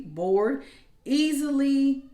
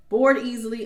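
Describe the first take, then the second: First: Slow, stretched-out bored easily; lingering on easily; drawn out. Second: Bored hit harder and louder; bored easily with weight on bored; stress on bored. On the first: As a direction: drag easily out long and slow. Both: Shown as a demonstration.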